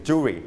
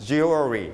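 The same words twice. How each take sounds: First: "jewelry" shortened to two syllables; two-syllable pronunciation. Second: "jewelry" drawn out in three syllables; three-syllable pronunciation. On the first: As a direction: sound "jewelry" as jew-ry, middle syllable dropped. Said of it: "ถ้าสองพยางค์เป็น jewelry". (อ่าน "jewelry" เป็นสองพยางค์) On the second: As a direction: sound "jewelry" as jew-el-ry. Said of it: "สามพยางค์หรือสองพยางค์ก็ได้". (อ่าน "jewelry" เป็นสามพยางค์) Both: Shown as a demonstration.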